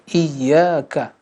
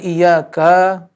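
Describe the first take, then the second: First: The vowels are short, with a doubled consonant. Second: A vowel is drawn out long. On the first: The speaker calls it right. "musyaddah, iyyaka" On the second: The speaker calls it wrong. "Jangan iyyaka, bukan ya, tidak, tidak ada mad di sini"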